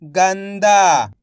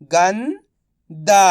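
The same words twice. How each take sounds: First: "गंदा" blended into one word; syllables joined. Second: "गंदा" split slowly, pause before दा; syllable by syllable. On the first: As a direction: say "गंदा" whole, without the pause. ("गंदा" मिलाकर एक शब्द में) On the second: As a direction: sound out "गंदा" as गन, then दा. ("गंदा" को तोड़कर, धीरे-धीरे) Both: Shown as a demonstration. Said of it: "तो मिलके बन जाएगा".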